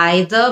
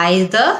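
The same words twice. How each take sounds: No difference in how they are said.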